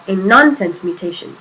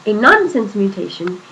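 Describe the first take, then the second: No difference in how they are said.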